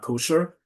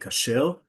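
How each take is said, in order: First: The first vowel is a rounded 'oh' sound. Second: The first vowel is an open 'ah' sound. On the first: The speaker calls it wrong. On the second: This is the modern Hebrew form. The speaker calls it right. "in Hebrew, by the way, we say kasher"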